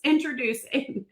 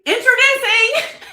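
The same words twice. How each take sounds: First: Said in the usual way. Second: A loud, high announcement bursting into laughter; dramatic flair. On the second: Real, not acted. Host finally unveiling her book title, laughing. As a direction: go big on the reveal and laugh through it. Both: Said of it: "I gotta give it a little dramatic flair here".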